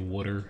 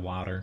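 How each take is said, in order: First: It is said in a Philadelphia accent. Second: It is said in a standard American accent. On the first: "a Philadelphia accent, where people say water" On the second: "instead of water"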